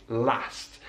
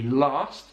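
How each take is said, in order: First: LAST with a short flat "a", as in cat; short open "a" in LAST, never "lahst"; northern English vowel. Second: LAST with a long "ah", as in father; broad, open "ah" in LAST; southern English vowel. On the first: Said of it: "in the north of England". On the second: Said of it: "in the south of England". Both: Shown as a demonstration.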